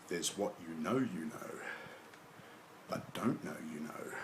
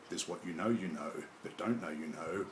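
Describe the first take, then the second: First: It is read at a slow pace. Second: It is read at a faster pace. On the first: The riddle can be pieced together. "read slowly" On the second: The riddle causes confusion. "I'll read it at a bit faster pace"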